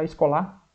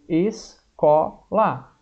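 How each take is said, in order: First: The stress is on the last syllable. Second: The stress is on the second syllable. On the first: The speaker calls it wrong. "não é o lá mais forte? Não, senão ia ficar escolar" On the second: The speaker calls it right. "Qual que é mais forte? É o có"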